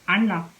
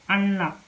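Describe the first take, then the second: No difference in how they are said.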